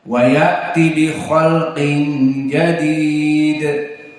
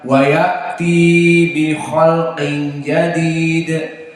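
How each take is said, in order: First: The vowel at the end of ya'ti is short. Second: The vowel at the end of ya'ti is long. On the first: The speaker calls it right. "Jangan dibaca panjang" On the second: The speaker calls it wrong. "Sebagian ikhwah membaca"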